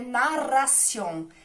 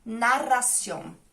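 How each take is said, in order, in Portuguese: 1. A palavra é dita com pronúncia espanhola. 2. A palavra é dita com pronúncia espanhola.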